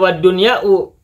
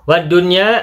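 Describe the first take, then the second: First: The word ends with an added 'u' vowel. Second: The word ends on a plain 'a' vowel. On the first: The speaker calls it wrong. "tidak boleh dibaca wad-dunya'u" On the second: The speaker calls it right. "meskipun tidak dibaca domah"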